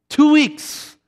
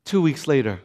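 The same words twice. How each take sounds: First: "Two weeks" punched out high; emphatic repeat. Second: Said in the usual way. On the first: Real, not acted. Preacher stressing how soon it happened, emphatic "Two weeks".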